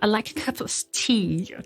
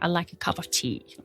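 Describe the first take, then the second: First: It is said in a British accent. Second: It is said in an American accent. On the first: "en britannique" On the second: "en américain"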